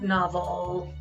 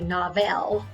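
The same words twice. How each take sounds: First: The second syllable has a weak, mushy vowel. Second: The second syllable has a full, clear vowel. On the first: The speaker calls it right. "the vowel sounds are mushy, weak, or lazy, as in the word novel, oh, uh, you hear it, uh" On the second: The speaker calls it wrong. "I don't say novel"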